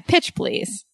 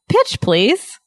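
First: It is said in a sassy, dismissive tone. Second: It is said in a polite, gentle tone. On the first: It is meant as a rude inside joke. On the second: It is meant as a courteous request.

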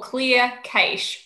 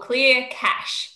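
First: Cache is said in a non-American pronunciation. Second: Cache is said in an American pronunciation.

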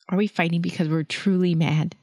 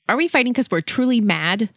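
First: It is said with care and sincerity. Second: It is said with a little anger.

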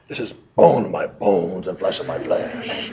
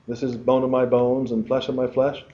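First: It is said with amazed, excited energy. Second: It is said in a plain, calm way. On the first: The speaker calls it right. "He went, yo" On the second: The speaker calls it wrong. "He didn't say it that way"

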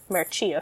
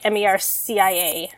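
First: The word is pronounced the Italian way. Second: The word is pronounced the English way.

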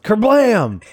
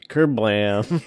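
First: The word is exclaimed with lively energy. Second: The word trails off flatly with low energy. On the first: The speaker calls it right. "It's pronounced Kerblam" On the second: The speaker calls it wrong. "you pronounced it with an ellipses"

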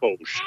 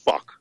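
First: The name ends with an sh sound. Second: The name ends with a k sound. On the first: The speaker calls it right. "it actually is pronounced Fosh" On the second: The speaker calls it wrong. "I've always pronounced it fuck"

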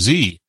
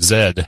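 First: The letter is said the American way, zee. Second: The letter is said the British way, zed.

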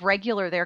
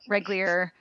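First: The word is said in its full form. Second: The word is said in a squashed, altered form. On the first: The speaker calls it right. "instead of regular" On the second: The speaker calls it wrong. "they thought it was reglier"

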